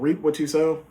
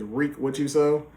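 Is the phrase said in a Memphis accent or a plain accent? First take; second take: plain; Memphis. First: It is said in a plain, neutral accent. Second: It is said in a Southern Memphis accent. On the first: "the song's called" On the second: "how he pronounces it with his accent"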